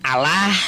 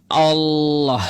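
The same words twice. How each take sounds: First: The word has its Indonesian pronunciation. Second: The word has its Arabic pronunciation. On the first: This is how Indonesian Christians say it. The speaker calls it wrong. "bukan Allah seperti Kristen gitu" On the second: This is how Arabs say it. The speaker calls it right.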